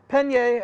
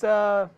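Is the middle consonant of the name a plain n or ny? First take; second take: ny; plain n. First: The middle consonant is an ny sound. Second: The middle consonant is a plain n sound. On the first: The speaker calls it right. "Enye, that's right" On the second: The speaker calls it wrong. "so sorry if I mispronounced your name"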